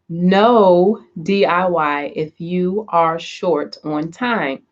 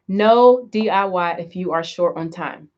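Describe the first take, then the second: First: It is said at a slow, deliberate pace. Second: It is said at a normal, quicker pace.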